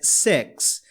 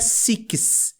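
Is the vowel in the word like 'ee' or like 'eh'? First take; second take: eh; ee. First: The vowel sounds like an open 'eh'. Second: The vowel sounds like a closed 'ee'. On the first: The speaker calls it right. "o I fechado tem um som de E" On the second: The speaker calls it wrong. "não é six"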